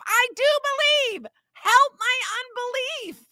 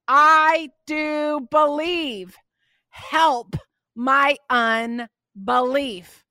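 First: High, strained cry of a father at his limit; desperate cry. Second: Slow, pleading cry of a desperate father. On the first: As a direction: cry it out, pitched high, at the end of his rope. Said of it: "this father had had enough". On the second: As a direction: drag it out like a father begging for help. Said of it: "the boy's father cried out and said". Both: Acted.

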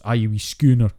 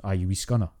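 First: "schooner" with a long ooh, like the ship; mock bad Scottish impression with ooh in "schooner"; bad fake Scottish. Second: "scunner" with a short u, like skunner; real Scottish scunner. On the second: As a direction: say "scunner" with the u of cup. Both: Shown as a demonstration. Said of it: "automatically think that's a ooh".

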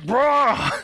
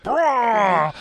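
First: Sad Wookiee roar. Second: A mock Wookiee roar, pitched up; Chewbacca roar. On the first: Retold or imitated. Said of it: "all sad". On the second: Podcaster mimics Chewbacca about to eat the porg, mock roar. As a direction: growl it like a hungry Chewie. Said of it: "and he's like".

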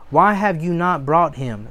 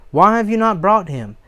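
First: Said in the usual way. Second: "Why have you not brought him" higher, with "brought" punched; raised, insistent "brought", then a falling end; emphatic repeated question. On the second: Acted.

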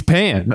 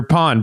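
First: "pan" with the flat English a of "cat"; English vowel pronunciation. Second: "pan" with an open ah, like "pahn"; Spanish vowel pronunciation. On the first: Man unsure of the Spanish word, "pan" said the English way. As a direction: say "pan" like the cooking pan. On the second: Man correcting himself, "pan" said with a Spanish ah. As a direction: say "pan" to rhyme with "on". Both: Shown as a demonstration. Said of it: "however you say it".

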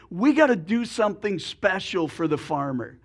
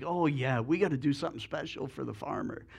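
First: Said in the usual way. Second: Lower, softer, fast pig agreeing; eager pig. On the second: Acted. Pig echoing the chicken's idea, low and quick. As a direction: rush the agreement, low and soft.

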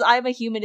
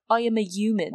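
First: Said in the usual way. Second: Creature mimicking a British accent; rough imitated British accent. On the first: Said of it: "when she says". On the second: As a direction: say it in a badly faked British accent. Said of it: "it imitates a British accent".

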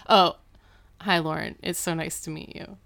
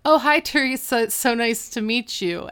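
First: Chastened greeting. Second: High, loud mock welcome; hearty greeting. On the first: Retold or imitated. Dad after mom punches him, subdued chastened greeting. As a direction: imitate a dad meekly correcting himself. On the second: Dad greets Lauren by the wrong name, loud hearty welcome. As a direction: imitate an over-eager dad greeting a guest.

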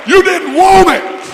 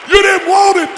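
First: YOU punched, high and loud; shouted rebuke. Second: You stressed, high shouted, falling; shouted rebuke again. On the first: Preacher hammering You at backsliders, shouting. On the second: Preacher repeating You to backsliders, shouting. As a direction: drive You home once more. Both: Real, not acted.

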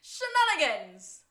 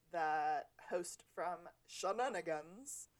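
First: Loud, slow, higher shout of Shenanigans; hammed-up show-host cry; announcer shout. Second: A bad put-on accent, slow, on Shenanigans; deliberately bad accent on Shenanigans; terrible accent. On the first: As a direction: bellow Shenanigans like a bar host's catchphrase. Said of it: "You say it". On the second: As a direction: drag out Shenanigans in a clumsy fake accent. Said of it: "That was a terrible accent". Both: Shown as a demonstration.

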